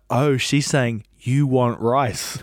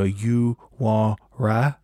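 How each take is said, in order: First: Said in the usual way. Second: Slow, drawn-out mock accent on "You want rice?"; a light imitation of the lady's accent asking "You want rice?", very slow; imitating her accent. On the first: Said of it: "And then I was like". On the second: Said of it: "I'm gonna try and emulate how she said it".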